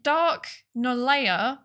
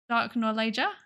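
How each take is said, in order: First: The last syllable sounds like 'yeah'. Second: The last syllable sounds like 'ja'. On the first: "my default pronunciation for that would be yeah" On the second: "Ja, like Ja"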